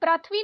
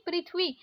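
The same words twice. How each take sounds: First: पृथ्वी said rathvi with a; wrong pronunciation. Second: पृथ्वी said prithvi with ri; correct pronunciation. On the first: Teacher shows the mistake: wrong pronunciation. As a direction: mispronounce पृथ्वी with a for ri. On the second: Teacher gives the right form: careful pronunciation. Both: Shown as a demonstration. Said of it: "नहीं".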